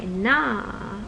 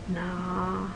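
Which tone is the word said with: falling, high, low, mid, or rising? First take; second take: high; low. First: The pitch is high. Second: The pitch is low and level. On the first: It means young maternal uncle or aunt. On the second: It means a nickname. "low tone"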